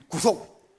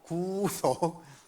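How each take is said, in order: First: The first vowel is said short. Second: The first vowel is drawn out long. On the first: Being arrested and handcuffed. The speaker calls it wrong. "이 말고" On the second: Being redeemed from sin. The speaker calls it right. "좀 길게 해야 됩니다"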